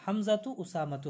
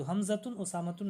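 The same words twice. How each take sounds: First: हमज़ा तो and उसामा तो ending in -tu, no n; no tanween. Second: हमज़तुन and उसामतुन with sounded -tun endings; wrong tanween. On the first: Teacher shows masculine names with ta marbuta, हमज़ा तो without tanween. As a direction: leave हमज़ा तो, उसामा तो open on a short u. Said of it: "हमज़तुन उसामतुन नहीं आएगा". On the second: Teacher shows students the forms not allowed, हमज़तुन with tanween. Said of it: "नहीं आएगा". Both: Shown as a demonstration.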